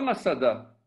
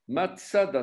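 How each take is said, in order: First: The middle consonant is a plain s. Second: The middle consonant is a ts sound. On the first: The speaker calls it wrong. "c'est pas Masada" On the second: The speaker calls it right. "c'est Matsada. Matsada, c'est un tzadé"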